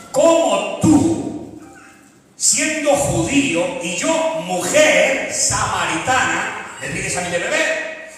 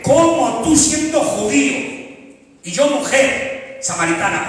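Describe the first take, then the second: First: Surprised woman. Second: High, drawn-out astonished question; surprised woman. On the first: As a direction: stretch it out in disbelief. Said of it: "esta mujer se sorprende". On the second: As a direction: ask it slowly, amazed. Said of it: "se sorprende al ver tanta grandeza". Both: Acted.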